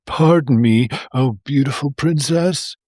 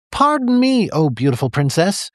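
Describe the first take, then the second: First: Pleading, pitiful little frog; milder pathetic plea, tried once more; a second, less squeaky pathetic plea; sad and pathetic. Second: High, whiny plea; overdone pathetic frog voice; sad and pathetic. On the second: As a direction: beg pitifully like a sorry little frog. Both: A narrator's reading. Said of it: "he said in his most sad and pathetic voice".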